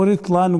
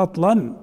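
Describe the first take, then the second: First: رطلا with an i after the ra, "ritlan"; second accepted form. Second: رطلا with an a after the ra, "ratlan"; first accepted form. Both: Shown as a demonstration. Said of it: "قلنا احنا اثنين جايزات".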